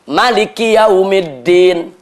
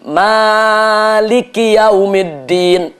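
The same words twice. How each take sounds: First: The vowel after the m is short. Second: The vowel after the m is long. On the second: "Mimnya panjang"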